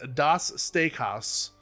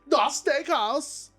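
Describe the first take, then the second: First: It is said in a plain, ordinary voice. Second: It is said in an exaggerated put-on accent. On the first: This is the expected pronunciation. "is what I think it's pronounced as" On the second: This is the fun way to say it. "I want to say it as Das Steakhouse because I feel like that's the only way to say it"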